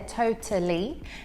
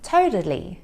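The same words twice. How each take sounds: First: The middle T is a clear, released T. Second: The middle T sounds like a soft D. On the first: "here I'm pronouncing it with a true T, so you can hear that T there" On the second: "the American T, which sounds more like a soft D"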